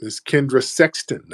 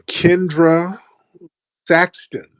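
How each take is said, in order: First: Sexton with a short e, not Saxton; Sexton said right. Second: Saxton with the a of sack, not Sexton; Saxton said wrong. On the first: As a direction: Kendra Sexton, the vowel as in sex. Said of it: "I said Saxton, but it's actually Sexton". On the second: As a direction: Kendra Saxton, the vowel as in sat. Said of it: "I said Saxton". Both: Shown as a demonstration.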